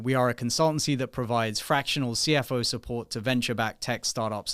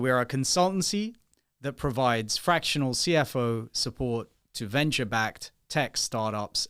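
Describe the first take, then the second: First: It is spoken at a normal, quick pace. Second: It is spoken slowly and deliberately.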